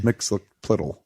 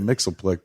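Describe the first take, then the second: First: The name is said in a long form. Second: The name is said in a short form. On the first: The speaker calls it right. "but it's Mixelplittle" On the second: The speaker calls it wrong. "which I always say wrong. I say Mixelplick"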